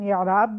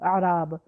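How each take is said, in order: First: The first vowel is an 'i' sound. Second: The first vowel is an 'a' sound. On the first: The speaker calls it right. "हम एराब भी नहीं बोलते" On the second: The speaker calls it wrong. "हालांकि अलिफ को हम ज़ेर के बजाय हम उसको ज़बर से पढ़ते हैं"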